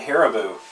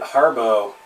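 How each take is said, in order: First: The middle vowel sound is pronounced. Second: The middle vowel sound is dropped. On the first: The speaker calls it right. "Nobody else pronounces it Haribo" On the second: The speaker calls it wrong. "They called it Harbo"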